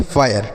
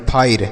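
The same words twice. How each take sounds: First: "फायर" as 'faa-yar', two syllables; correct fire pronunciation. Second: "फायर" as 'phair', r straight after ai; wrong fire pronunciation. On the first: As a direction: say "फायर" with a 'ya' before the final r. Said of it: "इसे हम पढ़ेंगे फायर". ("फायर" में आय के बाद र) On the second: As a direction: say "फायर" without the 'ya' sound. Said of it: "ऐसे नहीं पढ़ेंगे". ("फायर" को फाइर जैसा गलत बोलें) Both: Shown as a demonstration.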